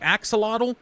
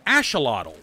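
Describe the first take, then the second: First: It is said the usual everyday English way. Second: It is said the original local way. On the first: The speaker calls it wrong. "while we all pronounce it" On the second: The speaker calls it right. "it is actually properly pronounced"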